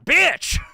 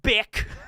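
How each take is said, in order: First: The name ends with a ch sound. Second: The name ends with a k sound. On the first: The speaker calls it right. "That's how it's spelled and pronounced" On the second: The speaker calls it wrong. "not Bick"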